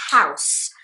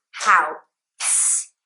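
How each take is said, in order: First: "house" in one piece with a hissed final S; one-syllable house. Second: "house" drawn out, the S pulled apart from the vowel; house split up. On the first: Teacher corrects the split version, "house" in one syllable. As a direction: say "house" as a single syllable, S at the end. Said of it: "it's just house". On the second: Teacher shows what you cannot do, "house" broken apart. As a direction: break "house" in two, slowly, as a learner's mistake. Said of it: "You cannot go house in English". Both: Shown as a demonstration.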